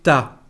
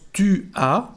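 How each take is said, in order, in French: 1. Ça se contracte en une seule syllabe. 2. Ça se dit en deux syllabes séparées. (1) "pero solamente ta" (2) "no decimos tu as"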